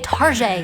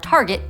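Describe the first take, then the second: First: It is said in a joking, fancy-sounding way. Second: It is said in the ordinary, plain way. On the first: The speaker calls it wrong. "purposely mispronouncing because it's funny" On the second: The speaker calls it right. "the official pronunciations"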